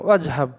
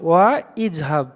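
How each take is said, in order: First: The words run together, the initial vowel dropped. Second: The words are separated, with the initial vowel sounded. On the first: The speaker calls it right. "আলিফটা পড়বো না" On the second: The speaker calls it wrong. "এমনি ভেঙে পড়লে কী হতো"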